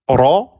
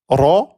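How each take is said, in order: The two takes are said the same way.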